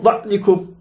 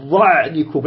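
First: "ظعنكم" with the ع cut off hard; faulty demo of a choked ع in "ظعنكم"; wrong hard Ayn. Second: "ظعنكم" with a half-flowing ع, pitched lower; correct flowing Ayn. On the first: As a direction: stop the sound dead on ع in "ظعنكم". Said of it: "لا تقل". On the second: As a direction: let the ع in "ظعنكم" ring briefly before the ن. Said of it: "لا تقل ظعنكم". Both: Shown as a demonstration.

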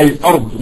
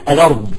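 First: "الأرض" as al-'ard with a glottal stop; full hamza. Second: "الأرض" run together as a-lard; no glottal stop inside "الأرض"; Maghrebi-style "الأرض", the l carrying the vowel; transferred vowel. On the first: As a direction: break after the l in "الأرض". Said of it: "ما بيقول لك الأرض". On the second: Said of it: "بيقول لك الأرض". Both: Shown as a demonstration.

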